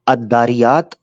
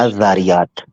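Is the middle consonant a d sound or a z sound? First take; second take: d sound; z sound. First: The middle consonant is a d sound. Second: The middle consonant is a z sound. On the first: The speaker calls it wrong. "ये Christian missionary कह सकता है, ठीक है, मुसलमान नहीं कहता" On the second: The speaker calls it right. "मुसलमान कहता है अजारियात"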